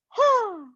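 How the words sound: The voice resonates high in the head. "This is my head voice"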